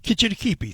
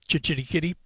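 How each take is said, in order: First: The name begins with a 'k' sound. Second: The name begins with a 'ch' sound. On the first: The speaker calls it right. "Kitchitikipi. Thank you" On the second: The speaker calls it wrong. "Why do I want to say Chich?"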